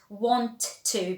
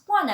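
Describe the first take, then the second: First: Both words are said fully and separately. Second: The words run together into one short form.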